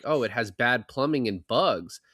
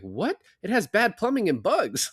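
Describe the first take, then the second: First: Plain, matter-of-fact quote; quoting her casually. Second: High, astonished repeat of the complaint; Alvy stunned she gave up a cheap apartment; incredulous echo. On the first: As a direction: toss off the reason lightly. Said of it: "and she's like". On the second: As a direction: throw her words back in disbelief, pitched way up. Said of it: "He's like". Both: Retold or imitated.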